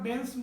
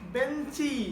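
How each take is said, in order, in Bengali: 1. শব্দটি ব্যঞ্জনধ্বনি দিয়ে শেষ হয়। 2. শব্দটি একটি যুক্ত i স্বরধ্বনি দিয়ে শেষ হয়। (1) "আমরা বেঞ্চ বলি না" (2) "শেষে কি রস্বইকার আসে না?"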